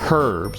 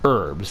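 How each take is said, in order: First: The word begins with a clear h sound. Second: The word begins without an h sound. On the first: "they say herbs with a hard H" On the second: "in American English we say herbs ... we say it more like like the French"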